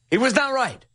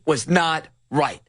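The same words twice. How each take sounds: First: "He was not right" pitched up, then falling; higher, insistent "not right" with a falling end; insistent repeat. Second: "was not right" drawn out slowly; slow down on "not right", falling at the end; measured emphasis. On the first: Repeats the verdict for emphasis. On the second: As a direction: weigh each word of "was not right". Emphatic verdict, then repeated. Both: Real, not acted.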